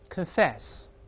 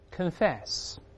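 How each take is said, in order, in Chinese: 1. 第一个音节弱化了，读得像 'kin'。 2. 第一个音节弱化了，读得像 'kin'。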